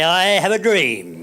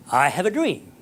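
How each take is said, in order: First: Slow, firm and louder; bold declaration. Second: Said in the usual way. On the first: Shown as a demonstration. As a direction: proclaim it proudly, each word weighted. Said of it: "You stand up there and you say". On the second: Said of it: "and pronounce it".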